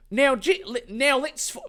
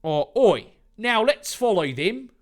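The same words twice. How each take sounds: First: Put-on slipping into a higher Australian accent; [name]'s line in a high Australian twang. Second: Put-on a louder Australian accent, starting with oi; [name]'s order with an Australian oi. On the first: [name] giving orders to the group, in an Australian accent. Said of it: "it's Australian again". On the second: [name] ordering everyone to follow Dave, in an Australian accent. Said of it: "it's Australia".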